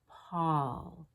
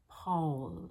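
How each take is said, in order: First: The vowel is said with relaxed lips. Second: The vowel is said with lips pushed forward. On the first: The speaker calls it right. "It's just Paul" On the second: The speaker calls it wrong. "not Paul, sticking the lips forward"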